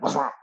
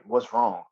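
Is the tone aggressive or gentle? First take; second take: aggressive; gentle. First: It is said in a harsh, aggressive tone. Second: It is said in a soft, caring tone. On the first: The asker is hostile, inviting an aggressive reply. The speaker calls it wrong. "if you say it in an aggressive way" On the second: The asker genuinely cares and wants to listen. The speaker calls it right. "like a real"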